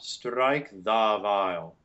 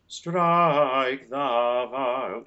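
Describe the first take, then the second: First: The word 'the' has a full, open vowel. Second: The word 'the' has a weak, neutral vowel. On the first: The speaker calls it wrong. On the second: The speaker calls it right. "the beautiful neutral schwa"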